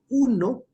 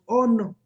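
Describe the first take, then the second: First: The first vowel sounds like u. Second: The first vowel sounds like o. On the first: "lo vemos escrito uno" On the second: "pronunciamos ono"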